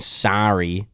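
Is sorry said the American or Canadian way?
American. The word is said the American way. "than American sorry"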